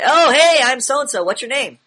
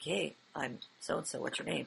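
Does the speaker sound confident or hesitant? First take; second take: confident; hesitant. First: It is said in a confident, authoritative tone. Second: It is said in an unsure, hesitant tone.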